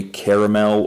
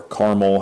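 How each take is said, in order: First: "caramel" in three syllables, CARE-uh-mel; three-syllable pronunciation. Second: "caramel" squeezed to two syllables, CAR-mel; two-syllable pronunciation. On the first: Reviewer offering fragrance notes, "caramel" fully pronounced in three syllables. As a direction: say "caramel" with the middle vowel sounded. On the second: Reviewer offering another pronunciation, "caramel" said as CAR-mel. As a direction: say "caramel" as CAR-mul, middle vowel dropped. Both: Shown as a demonstration. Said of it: "however the heck you want to pronounce it".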